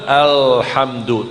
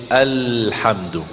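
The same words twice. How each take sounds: First: Alhamdu with the l curled back, said slowly; wrong alhamdu. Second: Alhamdu with the tongue tip forward, said softly; correct alhamdu. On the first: Teacher shows the wrong alhamdu to avoid. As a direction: say alhamdu with the tongue too far up. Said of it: "jangan alhamdu". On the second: Teacher shows the right alhamdu. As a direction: say alhamdu with the tongue near the upper teeth. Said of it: "tapi alhamdu". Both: Shown as a demonstration.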